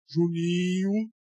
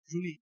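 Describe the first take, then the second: First: It is said in a big, deep voice. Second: It is said in an ordinary, soft voice. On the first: The speaker calls it right. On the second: The speaker calls it wrong.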